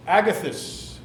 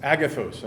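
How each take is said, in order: First: Agathos with a short unstressed last syllable; mispronounced name. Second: Agathos with a long O, ending like "those"; corrected pronunciation. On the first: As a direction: say Agathos ending in a weak "thus". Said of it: "am I saying the name right". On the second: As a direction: say Agathos as AG-uh-thohs. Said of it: "I beg your pardon". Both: Real, not acted.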